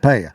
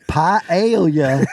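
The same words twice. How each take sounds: First: The word is said quickly. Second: The word is said slowly and carefully. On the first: The speaker calls it right. "So I just have to say it really fast" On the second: The speaker calls it wrong. "the harder I try, the worse it gets"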